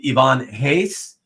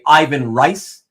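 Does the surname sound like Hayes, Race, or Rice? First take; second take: Hayes; Rice. First: The surname starts with an H sound. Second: The surname starts with R and rhymes with 'nice'. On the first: This follows the original Portuguese pronunciation. The speaker calls it right. "it is indeed Ivan Hayes, Portuguese pronunciation" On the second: This is how many people commonly say it. The speaker calls it wrong. "as you many of you will say"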